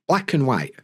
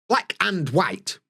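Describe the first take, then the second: First: The 'and' is reduced to a short 'n'. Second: The 'and' is said fully with its vowel. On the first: The speaker calls it right. "n, n, n" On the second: The speaker calls it wrong. "I don't say"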